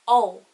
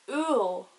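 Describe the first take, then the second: First: The vowel is short. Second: The vowel is long. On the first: The speaker calls it wrong. "without the father on the U would be like ul" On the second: The speaker calls it right. "The word for apple is ul"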